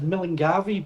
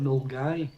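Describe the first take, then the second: First: The name is said with four syllables. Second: The name is said with two syllables. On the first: The speaker calls it wrong. "a lot of people will read that as Millingavi" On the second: The speaker calls it right. "That's how you pronounce it"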